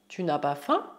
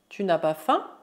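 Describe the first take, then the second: Both takes have the same delivery.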